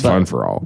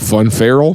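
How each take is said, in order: First: The name ends with three separate words 'for all'. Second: The name ends with a two-syllable 'feral'. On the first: The speaker calls it right. "It's Fun for All" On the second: The speaker calls it wrong. "A lot of people call it Fun Feral. That's not how it's pronounced"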